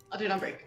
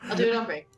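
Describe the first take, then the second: First: Laughing through it. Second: Said in the usual way. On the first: Real, not acted. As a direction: repeat it while laughing. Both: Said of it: "repeated laughing".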